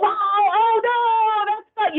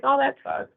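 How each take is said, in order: First: Higher, animated sympathy; match their upset with lively pitch; matching their emotion. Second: Said in the usual way. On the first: Shown as a demonstration. Trainer mirroring an upset client, higher and animated. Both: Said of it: "You know, you're matching that".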